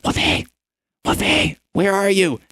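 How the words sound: It is said in a loud whisper.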